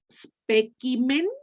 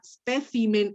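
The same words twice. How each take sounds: First: It is said with a classical Latin pronunciation. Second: It is said with a Spanish-style Latin pronunciation. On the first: "sería clásique" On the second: "si lo hace sigue hispanique"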